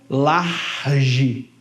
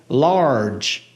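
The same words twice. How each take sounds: First: The final g sounds like a Portuguese j. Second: The final g sounds like an English j. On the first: The speaker calls it wrong. "não é large" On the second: The speaker calls it right. "é large"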